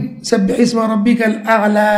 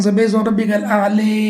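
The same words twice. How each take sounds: First: อาลา ending on a long open a; long vowel reading. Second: อาลี ending in a long i sound; tilted vowel reading. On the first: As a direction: recite "ซับบิฮิสมะร็อบบิกัลอาลา" with a long final า. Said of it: "เช่น". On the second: Teacher showing the other dialect to his class, final vowel as i. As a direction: recite "ซับบิฮิสมะร็อบบิกัลอาลี" with the final vowel bent to ี. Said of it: "อีกอันหนึ่ง". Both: Shown as a demonstration.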